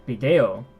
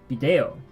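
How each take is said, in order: First: The stress is on the second syllable. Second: The stress is on the second syllable.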